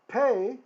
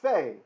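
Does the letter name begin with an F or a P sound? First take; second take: P; F. First: It begins with a P sound. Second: It begins with an F sound. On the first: The letter has a dot inside it. "the letter is pronounced like a P" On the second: The letter is written without the dot. "it's an F sound"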